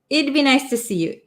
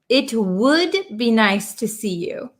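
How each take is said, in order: First: The contraction is said without any t sound. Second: The first two words are said in full. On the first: "we kind of take out that T sound" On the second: "It would"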